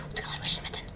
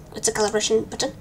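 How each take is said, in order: First: Hushed whisper of the same question. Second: Said in the usual way. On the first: Real, not acted. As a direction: whisper it to yourself, puzzled. Repeats question, then whispers it.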